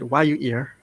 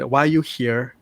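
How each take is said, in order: First: The h sound in 'here' is dropped. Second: The h sound in 'here' is pronounced. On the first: "they said why you ear. Like try to drop the H" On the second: "when you said why you here"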